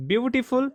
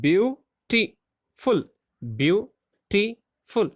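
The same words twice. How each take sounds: First: Said in the usual way. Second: Beautiful drawn out slowly, each syllable spaced; teacher slowly sounding out beautiful. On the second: Shown as a demonstration. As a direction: stretch beautiful slowly for the class. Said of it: "There are three syllables".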